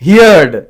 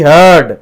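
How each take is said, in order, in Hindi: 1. इसका स्वर 'here' जैसा है, साथ में d। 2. इसका स्वर 'her' जैसा है, साथ में d। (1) "हिनखे वरी घणा छा चवंदा आहिनि" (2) "थींदी हर्ड"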